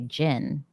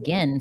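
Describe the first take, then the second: First: It starts with a soft J-like sound. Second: It starts with a hard G sound. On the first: The speaker calls it wrong. "like the drink" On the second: The speaker calls it right. "hard G"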